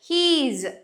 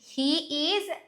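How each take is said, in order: First: The words are run together into one syllable. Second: Two separate words are said in full.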